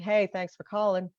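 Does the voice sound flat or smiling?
flat. It is said flatly, without a smile.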